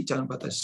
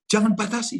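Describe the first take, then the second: First: Soft echo. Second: Emphatic. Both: Shown as a demonstration.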